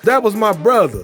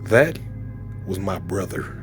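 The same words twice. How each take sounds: First: It is said mockingly, like a thug. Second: It is said with serious dramatic intensity.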